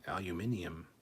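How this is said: It is pronounced the British way. The speaker calls it wrong. "British alumin aluminium"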